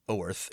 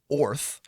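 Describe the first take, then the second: First: The vowel sounds like 'er' in 'her'. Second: The vowel sounds like 'or' in 'for'.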